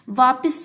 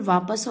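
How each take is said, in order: First: वापस said "vaapis", I in the second syllable; mispronounced vowel. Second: Said in the usual way. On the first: Shown as a demonstration. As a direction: end वापस on "pis". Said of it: "शब्द गलत है". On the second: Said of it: "बिल्कुल वापस होता है".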